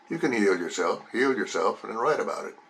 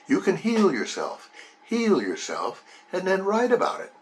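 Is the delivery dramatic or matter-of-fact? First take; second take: matter-of-fact; dramatic. First: It is said plainly, in a matter-of-fact way. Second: It is said with dramatic, expressive inflection. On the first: "It was just matter of fact" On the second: "that inflection that I used"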